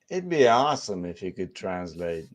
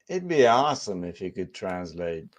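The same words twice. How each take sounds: No difference in how they are said.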